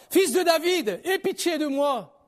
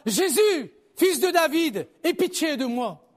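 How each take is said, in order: First: Appel crié, aigu, qui s'étire à la fin; cri plus insistant. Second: Appel crié, plus aigu et plus fort; cri suppliant. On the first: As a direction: implorer en criant, finale ralentie. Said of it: "il criait beaucoup plus fort". (supplication criée et insistante) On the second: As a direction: crier pour implorer la pitié. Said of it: "Et il cria". (appel suppliant lancé à voix haute) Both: A narrator's reading.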